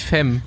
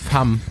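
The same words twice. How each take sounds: First: The word is pronounced a non-French way. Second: The word is pronounced the French way. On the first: The speaker calls it wrong. "nicht Femme" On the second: The speaker calls it right. "das heißt Femme auf Französisch"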